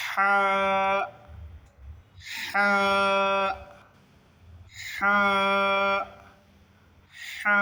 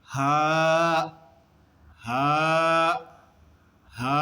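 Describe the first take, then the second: First: হা with a tight, long friction H from mid-throat; pressed throat haa. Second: হা as an ordinary loose "haa"; incorrect unpressed haa. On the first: Teacher modelling for students, হা as pressed Arabic "ḥaa". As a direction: squeeze the middle of the throat on হা, then open to "aa". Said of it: "pressure দিতে হবে।". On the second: Teacher showing students the wrong way, হা with a plain H. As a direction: let হা out with no throat pressure. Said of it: "সঠিক উচ্চারণ হবে না।". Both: Shown as a demonstration.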